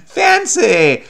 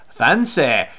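First: High, loud, hammed-up FANCY; playful put-on poshness, pitched up; mock-fancy. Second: "Fancy" ending in an open "eh", fan-SEH; mock-fancy pronunciation. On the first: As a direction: proclaim "Fancy" with laughing grandeur. Hams up the word fancy. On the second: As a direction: say "Fancy" affectedly, last vowel as "eh". Repeats fancy with altered vowel.

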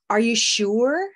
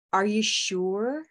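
First: "sure" with a blue vowel, like "blue"; modeled sure. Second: "you" stressed, slow and rising; slow emphatic question. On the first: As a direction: say "sure" as "shoo-er". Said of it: "I'm just going to model one". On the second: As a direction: ask slowly with "you" stressed, sounding concerned. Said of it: "maybe you're very concerned". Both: Shown as a demonstration.

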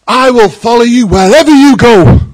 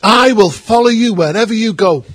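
First: Much louder, higher fervent cry; on fire vow. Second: Eager vow. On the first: Follower fresh from charismatic worship shouting to Jesus, fervent. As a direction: proclaim it on fire from God. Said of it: "they're on fire from God". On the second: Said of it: "someone said to Jesus". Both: Retold or imitated.

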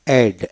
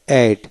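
The two takes are said the same way.

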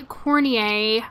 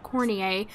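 First: Cornier said as "corn-ee-ay" with the stress on the end; chosen pronunciation. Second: Cornier repeated as "corn-ee-ay", a little softer; chosen pronunciation. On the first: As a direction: say Cornier like "kor-nee-AY". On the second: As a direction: say Cornier again as "kor-nee-AY". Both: Shown as a demonstration. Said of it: "That's how I'm gonna say it".

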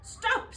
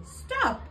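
First: Very high, loud shout. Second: Even higher, loud shout. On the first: Witch yelling at the dustman's truck, very high shout. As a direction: yell to halt the truck. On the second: Witch shouting after the departing dustman, very high shout. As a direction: yell it again after the truck. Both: A narrator's reading. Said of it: "shouted Winnie".

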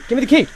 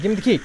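First: High, loud, desperate yell; full shout. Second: Louder, frantic demand; rising shout. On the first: Panicked gamer demanding the key, full yell. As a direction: scream it at the screen. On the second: Panicked gamer demanding the key, shouting. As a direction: yell it, getting desperate. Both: Real, not acted.

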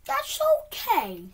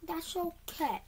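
First: High and loud, voice straining; strained fake calm. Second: Said in the usual way. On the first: Real, not acted. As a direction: force it through a tight squeal. Gamer forcing calm after failure.

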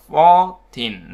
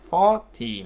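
First: Put-on slow, drawn-out "fourteen" stressed on -teen; slow contrast demo, "fourteen" end-stressed. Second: "forty" stressed on the first syllable. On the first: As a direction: stretch "fourteen", leaning on the ending. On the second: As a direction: lean on "for" in "forty", drop -ty. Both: Shown as a demonstration. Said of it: "Trọng âm nó khác nhau".

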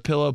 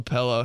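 First: Said in the usual way. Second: "pillow" said as "pellow"; mispronounced pillow. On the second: Shown as a demonstration. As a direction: open the first vowel of "pillow" to eh. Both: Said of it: "Instead of pillow".

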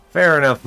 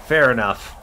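First: Louder fair enough. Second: Said in the usual way. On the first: Real, not acted.

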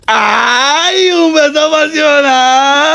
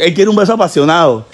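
First: High, drawn-out teasing wail; mock swooning squeal. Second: Said in the usual way. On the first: Host hyping a passionate kiss, mock swooning squeal. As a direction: stretch it out high, holding the last vowel.

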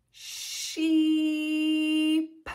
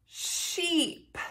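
First: SHEEP drawn out very slowly; stretched word. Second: Said in the usual way. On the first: Shown as a demonstration. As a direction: hold the EE in SHEEP on a level note. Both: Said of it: "Let's say sheep".

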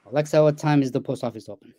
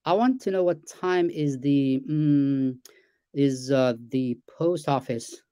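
First: Smooth, complete question said in one go; rehearsed command. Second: Slow, hesitant question with fillers; natural halting speech. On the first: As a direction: recite it like a prepared line to a device. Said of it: "That's not how we talk". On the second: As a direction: ask like real people do, umming midway. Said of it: "that's how I talk". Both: Shown as a demonstration.

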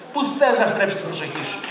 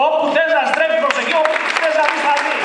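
First: Said in the usual way. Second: Emphatic shout. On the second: Shown as a demonstration. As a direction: shout it out to the crowd. Επανάληψη της φράσης φωναχτά. (δυνατά, με έμφαση, σαν να φωνάζει στο κοινό)

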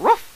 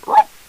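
First: High barked ruff on the out-breath; exhaled dog bark. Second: Loud ruff barked on the in-breath; inhaled dog bark. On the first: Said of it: "by exhaling". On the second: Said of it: "by inhaling". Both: Shown as a demonstration.

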